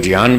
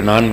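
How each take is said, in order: First: ज्ञान with a clear j, "jñaan"; ज्ञान pronounced "jiyaan" the Sanskrit way; Sanskrit pronunciation. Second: ज्ञान said as "gyaan", hard g at the start; ज्ञान in the everyday north Indian way, "gyaan"; ज्ञान pronounced "gyaan" as most people say it; common pronunciation. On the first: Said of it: "हम लोग ज्ञान बोलते हैं". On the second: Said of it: "आप लोग ज्ञान बोलते हैं". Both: Shown as a demonstration.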